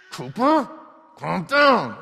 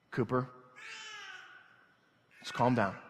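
First: Put-on high, loud yell at a child; screaming and yelling. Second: Restrained, spaced-out fatherly calming. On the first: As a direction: imitate a dad losing his temper, yelling. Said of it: "it's me screaming and yelling". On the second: Retold or imitated. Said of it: "in this frame of mind".

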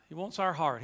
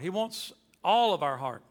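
First: Said in the usual way. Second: "all" weighted, falling firmly; "all" landed as the key word, rest even; stress on all. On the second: Shown as a demonstration. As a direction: lean on the word "all" in "He wants all of our heart". Repeat adds and stresses "all.

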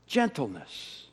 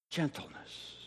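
First: Soft repeated word. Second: Whispered word. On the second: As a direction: whisper "Gentleness." softly with no voice. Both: Shown as a demonstration.

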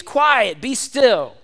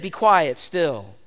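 First: Firm, raised command, a little higher; commanding rebuke. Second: Just say it, no drama; simple calm command. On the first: Jesus commanding the wind and waves, firmly. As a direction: rebuke the storm with authority. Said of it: "he said to the waves". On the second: Jesus stilling the storm with simple words, calm. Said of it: "He just simply said". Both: Acted.

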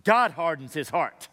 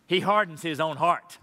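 First: "God" hit hard and falling; weight on "God", not on "hardens"; stress on God. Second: "hardens" leaned on, falling; weight on "hardens", not on "he"; stress on hardens. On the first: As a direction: punch the word "God". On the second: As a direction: lean into "hardens". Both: Shown as a demonstration. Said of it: "Not either or, but both and".

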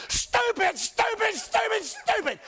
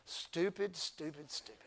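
First: Mock scolding yell. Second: Low, soft, self-mocking stupid; muttered stupid. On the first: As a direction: yell stupid at a friend who skips church. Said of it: "shake them violently and say". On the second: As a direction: mutter stupid at yourself under your breath. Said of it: "You know what you're gonna say?".

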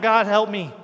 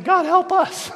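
First: Loud plea for help; retold crying out. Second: High, loud comic plea; exasperated mock begging. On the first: Woman on her knees to God, loud retold cry. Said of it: "on her knees crying out". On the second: Irritated disciples on their knees, exasperated loud begging. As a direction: beg loudly, at wits' end. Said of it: "get so irritated by it".

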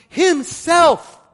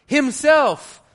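First: Himself much higher and louder, falling off; stressing Himself. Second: Himself thrown out high and loud, then a drop; stress on Himself. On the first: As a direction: slam Himself down as the sentence's opener. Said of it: "he begins by stressing the whole sentence". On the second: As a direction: hit Himself hard and high as the opening word. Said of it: "We don't write like that". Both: Shown as a demonstration.

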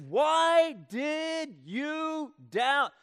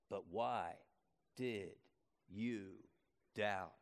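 First: Loud, high, very slow demand; loud rebuke. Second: Soft, low, slow question; quiet question. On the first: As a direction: stretch out each word as a shouted rebuke. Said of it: "but he says". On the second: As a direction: hush down and ask it slowly. Repeats Jesus' question quietly. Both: Acted.

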